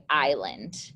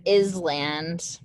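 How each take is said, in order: First: Island with a silent S, "eye-lund"; correct pronunciation. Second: ISLAND said with the S sounded, "iz-land"; misread as spelled. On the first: Teacher shows students how you say it, island as "eye-lund". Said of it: "this is how you say island". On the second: Teacher shows students the misleading spelling, island pronounced "iz-land". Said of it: "looks like the word island". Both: Shown as a demonstration.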